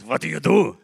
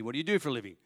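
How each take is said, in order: First: Put-on higher German-accented question; thick German accent. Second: Said in the usual way. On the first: German executive asking about the job, thick German accent. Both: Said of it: "This thick German accent".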